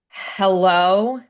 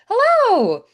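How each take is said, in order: First: It sounds cold and annoyed. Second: It sounds bright and excited. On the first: The listener is unwelcome. "who invited you? I don't want you here" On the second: The speaker is thrilled to see the listener. "like, I'm so excited to see you"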